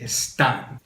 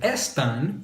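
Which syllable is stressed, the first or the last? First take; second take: last; first. First: The stress is on the last syllable. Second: The stress is on the first syllable. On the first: The speaker calls it right. "we want it to say están. So we're going to put an accent mark over that A" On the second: The speaker calls it wrong. "Instead of están"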